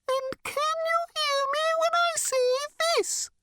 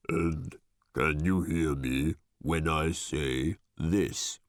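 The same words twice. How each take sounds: First: Squeaky, very high bird voice; much higher pitch. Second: Very low, slow, tomb-like voice; sepulchrally deep voice. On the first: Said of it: "It spoke this time at a much higher pitch". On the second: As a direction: drop it deep and slow, like from a crypt. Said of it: "this time in a sepulchrally deep voice". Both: A narrator's reading.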